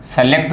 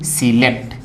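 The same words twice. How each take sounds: First: सेलेक्ट said with से at the start; wrong first vowel. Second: सिलेक्ट said with सि at the start; right first vowel. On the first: Teacher shows what to avoid, wrong first vowel. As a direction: put an e sound first in सेलेक्ट. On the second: Teacher contrasts it with the error, right first vowel. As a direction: put an i sound first in सिलेक्ट. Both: Shown as a demonstration. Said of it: "सी है न कि से".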